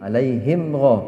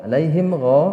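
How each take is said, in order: Both takes have the same delivery.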